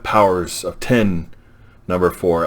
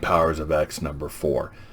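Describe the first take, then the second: First: The X is read as the number ten. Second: The X is read as the letter. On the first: "or is that Powers of ten number four?" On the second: "I say Powers of X"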